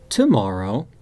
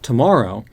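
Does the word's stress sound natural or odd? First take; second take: odd; natural. First: The stress falls on an unusual syllable. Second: The stress falls on the usual syllable. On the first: The speaker calls it wrong. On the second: The speaker calls it right.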